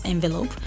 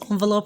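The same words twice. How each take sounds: First: The first vowel is an 'eh' sound. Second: The first vowel is an 'on' sound. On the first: "we can still pronounce it as envelope" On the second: "it is still right when I say on, not eh only"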